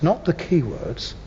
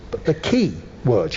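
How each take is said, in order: First: "keywords" with the stress landing on key as one compound. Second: "key words" as two separate words, each one stressed; stress on both words. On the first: Speaker shows a class the wrong stress, stress on "keywords" as one word. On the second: Speaker shows a class the right stress, "key words" split with both stressed. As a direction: give "key" and "words" equal weight, split apart. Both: Shown as a demonstration. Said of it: "the key words that you want to emphasize".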